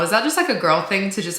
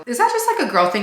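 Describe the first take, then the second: First: Said in the usual way. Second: High pitch on that; playful high-pitched question; rising high question. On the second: Real, not acted.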